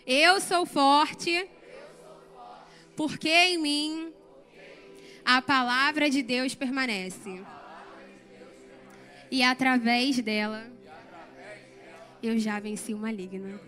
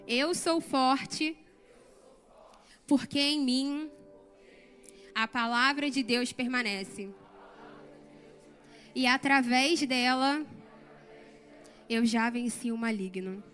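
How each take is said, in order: First: It is said louder, with strong conviction. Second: It is said at a normal, softer volume.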